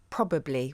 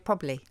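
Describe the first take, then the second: First: Every syllable of the word is pronounced. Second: One syllable of the word is dropped.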